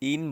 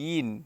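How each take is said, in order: First: The word begins directly with a vowel. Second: The word begins with a y sound. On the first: The speaker calls it wrong. "ইন বলা যাবে না, ইন বললে হামজার উচ্চারণ অথবা আলিফের উচ্চারণ হয়ে যায়" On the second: The speaker calls it right. "ইয়া দুই জের ইন"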